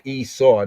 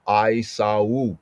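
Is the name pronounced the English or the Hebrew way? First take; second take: English; Hebrew. First: The name is said with an English pronunciation. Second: The name is said with a Hebrew pronunciation. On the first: The speaker calls it wrong. "not Esau. That's English. That's Western" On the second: The speaker calls it right. "in proper ancient Hebrew enunciation"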